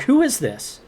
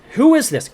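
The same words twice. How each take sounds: First: "Who is this?" pitched much higher, sharp; retold sharp challenge to a caller; demanding who it is. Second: "Who is this?" shouted much higher and louder; retold angry yell at a menacing caller. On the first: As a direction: fire "Who is this?" at the silent caller. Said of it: "I'm like". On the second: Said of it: "And I'm like".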